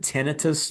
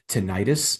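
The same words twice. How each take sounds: First: The ending sounds like 'ih-tus'. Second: The ending sounds like 'eye-tis'. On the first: It avoids suggesting an inflammation. The speaker calls it right. "I call it tinnitus" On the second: It suggests an inflammation. The speaker calls it wrong. "because when you hear itis, you think inflammation"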